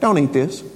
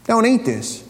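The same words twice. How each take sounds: First: Label read out. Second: Mock warning label. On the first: Retold or imitated. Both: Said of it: "What does it say?".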